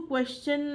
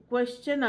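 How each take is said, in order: Both takes have the same delivery.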